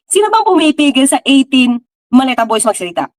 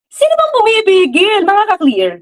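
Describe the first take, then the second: First: Said in the usual way. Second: High rising taunt at the audience; challenging question. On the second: Real, not acted. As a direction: dare them to answer. (mapanghamong tanong, pataas ang tono) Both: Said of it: "Sige nga, tell me nga".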